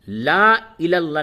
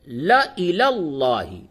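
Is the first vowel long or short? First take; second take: long; short. First: The first syllable has a long vowel. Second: The first syllable has a short vowel. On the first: The speaker calls it wrong. "ला इलल्लाह नहीं बोलेंगे" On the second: The speaker calls it right. "यहां पे बोलेंगे ल ल"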